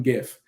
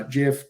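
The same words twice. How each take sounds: First: "gif" said with a hard g, as in gift; hard-g pronunciation. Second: "gif" said with a soft g, like jif; soft-g pronunciation. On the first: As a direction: say "gif" starting with a hard g sound. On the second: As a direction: say "gif" starting with a j sound. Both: Shown as a demonstration. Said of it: "depending on how you pronounce it".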